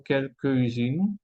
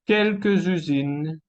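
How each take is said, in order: First: Quelques usines with silent s; quelques, then usines, unlinked; missing liaison. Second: Quelques usines linked with a z; liaison. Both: Shown as a demonstration. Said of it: "y no quelques usines".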